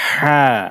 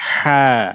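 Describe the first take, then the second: No difference in how they are said.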